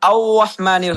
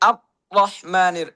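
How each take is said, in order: First: The r becomes a vowel-like glide. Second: The r sound is abruptly cut off. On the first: "অনেকে এখানে আউ রহমানির হয়ে যায়, জিহ্বা উপরে লাগাতে হবে" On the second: "আওয়াজ বন্ধ হয়ে যায়"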